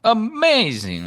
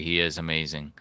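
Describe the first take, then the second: First: High drawn-out amazing; like James. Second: Said in the usual way. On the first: Retold or imitated. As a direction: stretch amazing up high and slow. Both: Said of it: "I'll say it like James".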